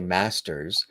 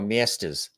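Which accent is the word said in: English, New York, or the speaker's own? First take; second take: own; New York. First: It is said in the speaker's own accent. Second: It is said in a New York accent. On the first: "I say masters" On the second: "cousins in New York go miestas"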